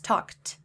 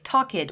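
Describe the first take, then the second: First: The ending is a plain 't' sound. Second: The ending is an extra 'id' syllable. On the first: The speaker calls it right. "It's talked" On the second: The speaker calls it wrong. "they have a tendency to read it like talked"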